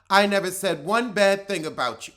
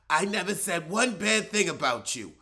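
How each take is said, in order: First: It is said in a plain voice. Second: It is said in a raspy voice.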